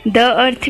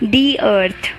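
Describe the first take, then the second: First: The article is said with a short 'thuh' sound. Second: The article is said with a long 'thee' sound. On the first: "द earth भी बोल सकते हो"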